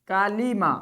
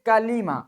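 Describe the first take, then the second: No difference in how they are said.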